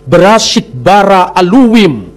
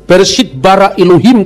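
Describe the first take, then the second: First: The last word has a w sound. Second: The last word has an h sound. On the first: This is the Samaritan reading. "Jadi huruf H-nya dibaca W" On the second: "bukan Bereshit bara Elohim"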